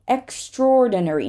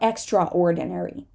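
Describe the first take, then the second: First: One syllable of the word is dropped. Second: Every syllable of the word is pronounced. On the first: The speaker calls it right. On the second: The speaker calls it wrong.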